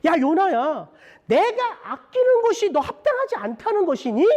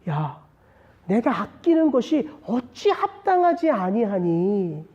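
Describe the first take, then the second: First: High-pitched, emphatic challenge; God confronting Jonah. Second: Slow, drawn-out, restrained appeal; God addressing us. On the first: God questioning Jonah about what He cherishes, high emphatic rebuke. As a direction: call him out with an urgent, high question. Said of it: "하나님이 요나에게 말씀하시네요". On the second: God putting His question to preacher and congregation, slow restrained appeal. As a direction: put the question slowly and gravely to the listeners. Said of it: "저와 여러분들에게 던지시는 하나님의 말씀이에요". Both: Acted.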